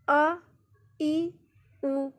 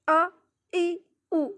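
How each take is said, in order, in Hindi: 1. आवाज़ें आराम से और सहजता से कही जाती हैं। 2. आवाज़ें जल्दी में और अचानक झटके के साथ कही जाती हैं। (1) "बहुत आराम से रखना है" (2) "जल्दी में पढ़ेंगी इस तरह झटका लगेगा"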